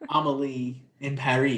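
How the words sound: It is pronounced the French way.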